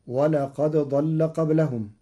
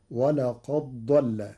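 First: Said in the usual way. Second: ولقد ضل with the د merged into a doubled ض; slow, run ولقد ضل together as walaqaḍḍall; dal merged into daad. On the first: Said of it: "قرأ ورش كلمتي ولقد ضل". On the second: Shown as a demonstration. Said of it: "بإدغام الدال في الضاد". (إدغام الدال في الضاد)

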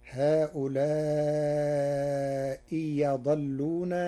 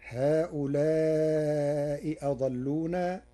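First: "هؤلاء يضلون" slowly, a clear y opening the second word; second hamza as ya. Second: Said in the usual way. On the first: Shown as a demonstration. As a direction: glide from "هؤلاء" into "يضلون" on a y, no glottal stop. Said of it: "بإبدال الهمزة الثانية ياء، فتصير". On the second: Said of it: "بإبدال الهمزة الثانية ياء".

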